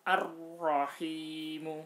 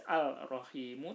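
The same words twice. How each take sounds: First: Ar-rahimu, slow and loud, the r doubled; correct assimilated form. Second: Al-rahimu with the l sounded before r; wrong unassimilated form. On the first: Teacher demonstrating the correct reading, slow and loud. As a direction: recite ar-rahimu slowly with the rolled double r. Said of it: "tapi harus dibaca". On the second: Teacher showing the wrong reading, lam sounded. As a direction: say al-rahimu, pronouncing the l. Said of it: "nggak boleh dibaca". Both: Shown as a demonstration.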